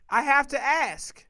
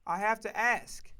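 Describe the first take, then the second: First: Louder, higher and slow; insistent, raised-voice demand; emphatic repeat. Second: Said in the usual way. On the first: Real, not acted. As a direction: drive it home loudly, word by word.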